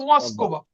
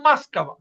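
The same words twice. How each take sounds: First: Said in the usual way. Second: মাস্কাভা with the first ও said as আ; Russian way: মাস্কাভা, not মস্কোভা; reduced vowels. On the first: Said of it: "মস্কোভা না". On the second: Shown as a demonstration. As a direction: say মাস্কাভা, unstressed ও as আ, stress on কাভা. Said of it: "এটার উচ্চারণ কিন্তু".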